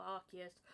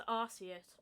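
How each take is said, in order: First: Arceus with a hard c; Arceus, k sound in the middle; alternative pronunciation. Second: Arceus, s sound in the middle; alternative pronunciation. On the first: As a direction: say Arceus as AR-kee-us. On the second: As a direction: say Arceus as AR-see-us. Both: Shown as a demonstration. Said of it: "I don't know how to pronounce it".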